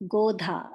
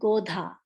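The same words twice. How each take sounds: First: The d is followed by a puff of breath. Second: The d is followed by a puff of breath.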